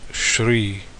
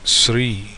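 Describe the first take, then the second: First: The word begins with a sh sound. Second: The word begins with an s sound. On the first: This is the Hindi pronunciation. "In Hindi, it's usually pronounced as Shri" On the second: This is the Telugu pronunciation. "this is Sri"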